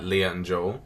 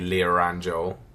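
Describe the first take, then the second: First: No R sound links Leah to and. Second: An R sound links Leah to and. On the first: This is how Americans say it. "Americans would say Leah and Joel, like they wouldn't say the R" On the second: This is how the speaker's own accent says it. "But we say Leah and Joel. And insert the R"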